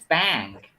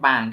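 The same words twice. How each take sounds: First: The vowel is bright, with spread, smiling lips. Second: The vowel is said without spread, smiling lips. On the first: The speaker calls it right. "It's bank. Like a sheep" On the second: The speaker calls it wrong. "it's not bank"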